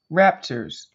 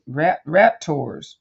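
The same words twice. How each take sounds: First: Said in the usual way. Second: Slow, groping "rat, raptors" with a false start on "rat"; stumbling over raptors. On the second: Real, not acted. Searching aloud for the name of the birds, stumbling slowly. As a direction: fumble toward "raptors", syllable by syllable. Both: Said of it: "What do you call 'em?".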